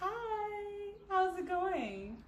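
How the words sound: It sounds flirty and shy.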